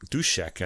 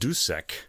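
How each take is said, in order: First: The name is said with a Czech pronunciation. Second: The name is said with an English pronunciation. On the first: The speaker calls it right. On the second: The speaker calls it wrong.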